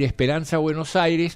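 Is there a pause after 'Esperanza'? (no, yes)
no. The words run together without a pause. It is simply the festival's name. "uno puede decir Esperanza Buenos Aires"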